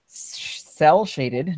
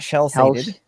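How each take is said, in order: First: The first syllable starts with an s sound. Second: The first syllable starts with an sh sound. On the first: The speaker calls it right. "Let's say that properly" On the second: The speaker calls it wrong. "not shell-shaded"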